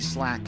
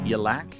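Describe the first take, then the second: First: The Y sound is left out. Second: The S sound is left out. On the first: "it could even be a silent Y" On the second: "I might go with silent S"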